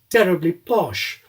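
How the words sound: It is said with weak aspiration.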